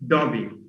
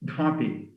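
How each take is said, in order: First: The first consonant is a plain unaspirated d. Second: The first consonant has a breathy aspirated release. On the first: "he will say Dobby" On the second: "an aspirated da"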